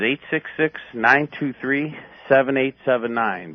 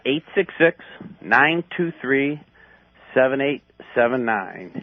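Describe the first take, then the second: First: The number is read at a normal pace. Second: The number is read more slowly.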